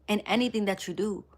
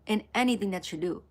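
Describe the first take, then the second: No difference in how they are said.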